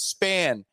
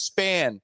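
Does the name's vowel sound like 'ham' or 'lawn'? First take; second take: ham; ham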